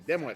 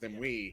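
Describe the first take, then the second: First: The final T sound is pronounced. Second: The final T sound is left silent. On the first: The speaker calls it wrong. "if they called me Dimwit" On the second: The speaker calls it right. "it was actually pronounced Dimwee, as the T was silent"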